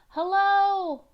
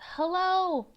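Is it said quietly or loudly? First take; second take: loudly; quietly. First: It is said loudly and firmly. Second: It is said quietly and hesitantly.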